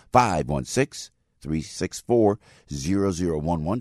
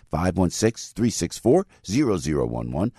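First: Slow down on each digit; slow, spelled-out number. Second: Said in the usual way. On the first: Shown as a demonstration. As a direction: let listeners write it down, digit by digit. Repeats phone number for listeners.

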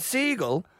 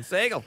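First: "seagull" said slowly in an Irish accent. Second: "Seagull" clipped short and fast; quick seagull. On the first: Irish comedian showing how he says "seagull", slow Irish accent. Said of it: "that's my Irish accent saying seagull". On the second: Showing the quick Irish way to say "Seagull". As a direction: snap out "Seagull" in one go. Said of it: "just going". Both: Shown as a demonstration.

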